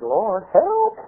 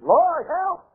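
First: Raised pitch climbing on "help"; lightly acted appeal, rising at the end; mild plea. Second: High, squeaky cry for help; mock scream. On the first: Stumped pastor asks God for help, mild plea. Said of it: "I said". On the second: Pastor out of his depth begs God, mock scream. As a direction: imitate a panicked scream, pitched way up. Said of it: "I screamed".

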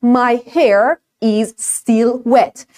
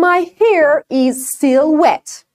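First: "still" as "estil" and "wet" as "vet"; slow, heavily Persian-accented English. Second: "still" with plain S and "wet" with rounded W; slow clear English model sentence; correct model. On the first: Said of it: "خیلی زشته این مدل حرف زدن". (تلفظ غلط با لهجهٔ فارسی) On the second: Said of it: "مثلاً اگر اینو ببین". (جمله با تلفظ درست) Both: Shown as a demonstration.

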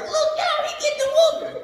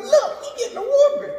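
First: Put-on much higher kid voice calling out; gleeful little kid. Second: Put-on much higher kid voice; little kids mocking the boy getting whooped; gleeful little kid. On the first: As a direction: crow like a little kid tattling. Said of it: "it was like". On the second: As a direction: tease like a giggling child. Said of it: "little kids over there talking".

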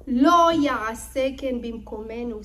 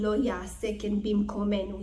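First: Loud Hebrew quote. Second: Said in the usual way. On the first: Acted. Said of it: "says Lavan to Yaakov". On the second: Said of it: "What does he mean".

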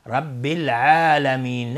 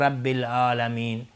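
First: Slow, louder «العالمین» with squeezed ayn; correct ain. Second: «العالمین» with plain open a; ain as alif. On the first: Teacher asks students to pay attention, correct ain. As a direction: lean long on the throaty ayn of «العالمین». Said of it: "دقت کنید". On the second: Teacher shows what we don't say, ain as alif. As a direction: drop the ayn of «العالمین» to a glottal a. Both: Shown as a demonstration.

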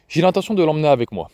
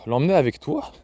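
First: Calm, settled announcement, quick; flat firm statement. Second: Disbelieving question, rising on the end; stunned echo. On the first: Father telling grandmother he takes the boy, flat and firm. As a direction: state it as already decided. Gen announces taking his son. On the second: Grandmother stunned by the father's plan, disbelieving echo. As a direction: repeat his words as if they can't be true. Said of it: "le regarda avec stupeur". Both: Acted.

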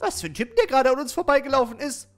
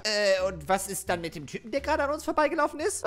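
First: Mocking echo. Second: Said in the usual way. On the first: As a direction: echo the question back in a louder put-on voice. Spöttische Wiederholung in anderer Stimme. (spöttisch nachäffend) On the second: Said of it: "Wiederholung der Frage".

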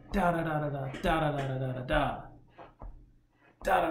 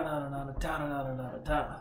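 First: Sung, quick run of da syllables; sung, scat the lick's rhythm, flowing; da da da hummed in a quick stream; sung, scatted rhythm. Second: Each da split off with short breaks; da, da, da spelled out one by one and fading; spaced accents. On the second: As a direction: tap out each da on its own, accented. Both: Shown as a demonstration. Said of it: "there's accents to the rhythm".

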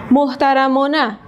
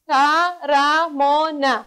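First: Said in the usual way. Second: محترمانه drawn out, moh-ta-ra-ma-ne; slow syllabified. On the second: Shown as a demonstration. Teacher slowly syllabifying محترمانه for pupils.

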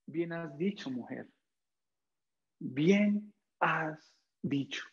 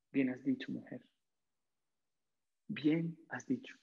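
First: Soft, slow and gentle; tender Jesus. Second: Tender Jesus. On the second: Jesus repeats the words softly. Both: Acted. Jesus gently praising the Samaritan woman, soft and tender. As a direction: speak the praise softly, as a caring teacher.

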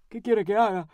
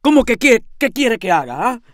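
First: Lightly voiced helpless man, a change of voice; helpless lodger. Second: Loud, indignant yell, starting high; shouting. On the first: Lodger answering his landlady, helplessly. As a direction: answer as a defeated lodger, mildly. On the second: Landlady shouting back at her helpless lodger, indignantly. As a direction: throw the question back in a shout. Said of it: "grité". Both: A narrator's reading.

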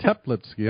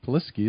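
First: "Teplitsky" in three syllables, tep-LITS-kee; corrected pronunciation. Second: "Plisky" said as PLIS-kee, first syllable missing; tentative pronunciation. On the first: Host repeating the guest's correction, "Teplitsky" in three full syllables. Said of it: "I'm sorry". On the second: Host checking the guest's surname, tentative "Plisky" in two syllables. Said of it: "is that how you pronounce it". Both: Real, not acted.

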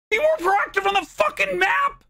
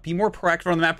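First: High, loud incredulous yell of the tip; echoing the chat's tip back, enraged; outraged repeat. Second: Said in the usual way. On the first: Real, not acted. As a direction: throw the advice back in disbelief. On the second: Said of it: "chat tip read plainly".

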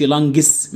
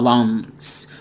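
First: "lungs" with a hard g, as "lan-ges"; mispronounced lungs. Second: Said in the usual way. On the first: Shown as a demonstration. Teacher showing students what not to say, mispronounced "lungs" as "lan-ges". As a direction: add an extra g-syllable to "lungs". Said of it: "ما تقولش". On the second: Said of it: "ما تقولش lungs".

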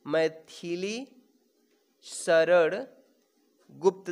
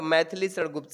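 First: "Maithili शरण Gupt" slowly, long pause after each word; word-by-word dictation. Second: Said in the usual way. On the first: Shown as a demonstration. Teacher repeats name for dictation. ("Maithili शरण Gupt" को एक-एक शब्द रुक कर बोलें)

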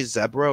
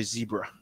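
First: "zebra" with a short e; Zed-style zebra. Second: "zebra" with a long ee; Z-style zebra. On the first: Arguing over Zed, "zebra" said with short e, zeb-ruh. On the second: Arguing for Z, "zebra" said with long ee, zee-bruh. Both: Shown as a demonstration. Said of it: "I say Z instead of Zed".

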